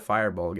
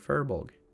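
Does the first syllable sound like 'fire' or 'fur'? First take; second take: fire; fur. First: The first syllable sounds like 'fire'. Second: The first syllable sounds like 'fur'. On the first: The speaker calls it wrong. "It's not a firebolg" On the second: The speaker calls it right. "it's a furbolg"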